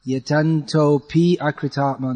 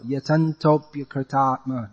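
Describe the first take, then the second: First: "Yatanto pi akritatma" broken into separate words; "Yatanto pi akritatma" with the extra syllable; wrong split. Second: "Yatantopyakritatma" as one flowing word; "Yatantopyakritatma" smooth and unbroken; flowing join. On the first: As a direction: say "Yatanto pi akritatma" with a gap before akritatma. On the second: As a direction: run "Yatantopyakritatma" together, pya as one syllable. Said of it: "It's flowing". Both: Shown as a demonstration.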